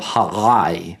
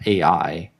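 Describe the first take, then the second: First: The name starts with a strong guttural sound. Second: The name starts with a plain vowel sound. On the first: The speaker calls it right. "a very strong guttural sound. That's how you say it" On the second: The speaker calls it wrong. "not A I"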